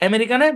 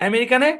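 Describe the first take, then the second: Both takes have the same delivery.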